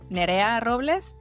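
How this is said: The name is pronounced with Spanish sounds. "in Mexico, I would say"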